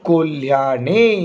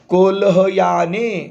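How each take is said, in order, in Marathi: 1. 'ha' हे 'ya' सोबत एकाच अक्षरात जोडलेले आहे. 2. 'ha' हे 'ya' च्या आधी स्वतंत्र अक्षर आहे. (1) "कसा उच्चार होईल?" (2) "कोल्हयाने असा उच्चार होईल का बाळांनो? नाही होणार"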